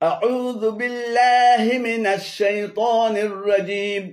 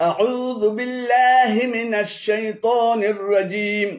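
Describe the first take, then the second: Both takes have the same delivery.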